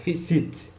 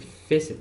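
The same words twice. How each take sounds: First: The stress is on the second syllable. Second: The stress is on the first syllable. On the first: The speaker calls it wrong. "It's not like facet" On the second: The speaker calls it right. "the first syllable is stressed, means it gets the louder sound"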